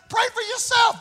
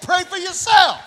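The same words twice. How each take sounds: First: "pray for yourself" thrown high; pitched-up command. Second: "Pray for yourself" punched louder; loud command. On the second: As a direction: hammer "Pray for yourself" with volume. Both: Shown as a demonstration. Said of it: "That's what it said".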